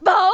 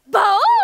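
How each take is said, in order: First: The barking sounds sad. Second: The barking sounds surprised.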